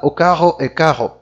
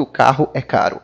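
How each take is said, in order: First: Imitated French accent with "caro" said like "carro"; Portuguese in a French accent, both Rs in the throat; French-accented "caro" with a guttural R. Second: Said in the usual way. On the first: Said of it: "Ele vai falar". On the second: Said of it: "falar assim".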